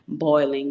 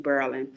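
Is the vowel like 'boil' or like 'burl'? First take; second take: boil; burl. First: It has the standard 'oi' vowel. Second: It has the New Orleans 'ur' vowel.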